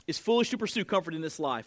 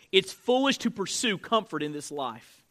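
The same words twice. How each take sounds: First: It's foolish to pursue comfort in this life, repeated fast and softer; quick quieter repeat. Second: It's foolish to pursue comfort in this life, said slowly with weight on foolish; slow emphatic statement. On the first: Pastor repeating the line so listeners can write it down, fast and softer. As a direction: run it again quickly for note takers. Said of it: "This is in your notes". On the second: Pastor giving the key note to his church, weighted on foolish. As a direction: lay down the point, leaning on foolish. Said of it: "Let me say it like this".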